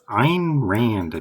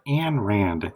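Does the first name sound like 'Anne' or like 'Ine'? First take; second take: Ine; Anne. First: The first name has the vowel of 'mine'. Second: The first name has the vowel of 'man'. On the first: The speaker calls it right. "Next is Ayn Rand" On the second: The speaker calls it wrong. "not Anne Rand"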